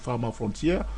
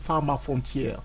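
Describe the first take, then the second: First: The name is said with a French pronunciation. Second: The name is said with an English pronunciation.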